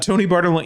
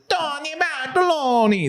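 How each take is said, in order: First: The name is said plainly, without any put-on accent. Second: The name is said in an exaggerated Italian accent. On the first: It simply says the name. The speaker calls it right. "You could just say it normal" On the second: It mocks the name's Italian origin. The speaker calls it wrong. "they do like a terrible It- like"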